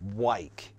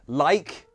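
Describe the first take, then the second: First: The word begins with a W sound. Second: The word begins with a clear L sound. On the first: The speaker calls it wrong. "you don't change it to wike" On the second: The speaker calls it right. "if a word begins with an L, don't change that"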